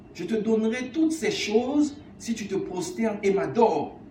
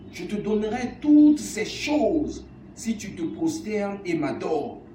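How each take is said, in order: Both takes have the same delivery.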